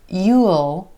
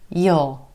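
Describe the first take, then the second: First: It is said as a full contraction. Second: It is said in a further reduced form. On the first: "You will can become you'll" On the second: "most of the time this one's going to reduce too"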